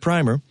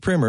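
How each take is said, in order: First: The first vowel is a long 'eye' sound. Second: The first vowel is a short 'i' sound. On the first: It means a paint undercoat for walls. The speaker calls it wrong. "not primer" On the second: It means a basic introductory guide. The speaker calls it right. "it is pronounced primer"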